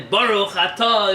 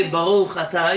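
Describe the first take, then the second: First: "Baruch atah" with rounded aw vowels, "atah" drawn out slowly; slow, emphatic "Baruch atah", loud, ending in a long aw. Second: "Baruch atah" with open ah vowels; "atah" ending in a clear ah. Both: Shown as a demonstration.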